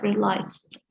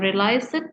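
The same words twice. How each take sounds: First: The word ends with a clear final t sound. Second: The word ends without a final t sound. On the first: The speaker calls it right. "but realized" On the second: The speaker calls it wrong. "bukan realized"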